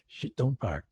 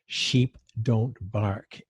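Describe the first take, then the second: First: The phrase is said quickly and run together. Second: The phrase is said slowly and carefully. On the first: The speaker calls it wrong. "if I said it too fast, it might sound rude" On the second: The speaker calls it right. "I had to say that very carefully"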